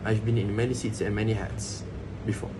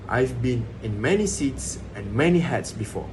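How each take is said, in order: First: Every word gets equal length and stress. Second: Some words are stressed, others are reduced. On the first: "each word uh, received equal duration of stress" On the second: "So the been, many seats, and many hats are stressed"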